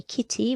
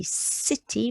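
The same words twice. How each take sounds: First: "kitty" with a k sound at the start; hard C. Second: "city" with an s sound at the start; soft C. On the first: Teacher shows wrong reading of city, hard C. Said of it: "We don't say kitty". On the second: Teacher shows right reading of city, soft C. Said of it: "we say city because a C before an I goes s". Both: Shown as a demonstration.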